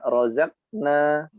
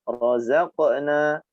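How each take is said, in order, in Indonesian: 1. Bunyi q dipotong tanpa lepasan. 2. Bunyi q punya sedikit pantulan di akhir. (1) "tidak razaqna" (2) "tapi razaqna. ada sedikit pantulan"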